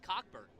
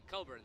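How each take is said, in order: First: The name is said with a full k sound. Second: The name is said without the k sound. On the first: The speaker calls it wrong. "It's not pronounced like that" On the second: The speaker calls it right. "Coburn then"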